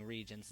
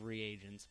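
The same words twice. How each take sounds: First: "regents" in two syllables, REE-jents; own pronunciation. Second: "reagents" in three syllables, ree-AY-jents; standard pronunciation. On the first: Expecting flames from viewers, regents said as two syllables. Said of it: "flame me for saying regents". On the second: Naming what viewers expect, reagents in three syllables. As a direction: say reagents with a separate long A. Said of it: "instead of reagents". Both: Shown as a demonstration.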